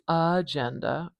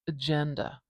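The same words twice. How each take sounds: First: The first vowel is full and clearly pronounced. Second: The first vowel is very short and weak. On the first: The speaker calls it wrong. "I'm not saying agenda" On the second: The speaker calls it right. "It's almost swallowed"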